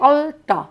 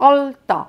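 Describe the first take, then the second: Both takes have the same delivery.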